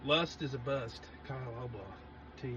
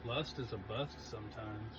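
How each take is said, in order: First: Mock slogan again. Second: Slow, quiet tagline read; slow mock slogan voice. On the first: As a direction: say it like a catchphrase with credit. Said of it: "Do I need to do both of those?". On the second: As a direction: deliver it like a trademarked motto. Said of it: "T M, Kyle Albaugh".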